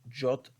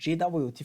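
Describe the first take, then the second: First: It is said as one word, jot. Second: It is said as three separate letters. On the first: "You can pronounce it as J O T" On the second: "or J W T"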